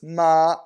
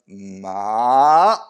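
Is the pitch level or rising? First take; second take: level; rising. First: The pitch stays level and stops cleanly. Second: The pitch rises from the middle, getting louder. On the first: "that's the first tone" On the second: "it crescendos as you go up"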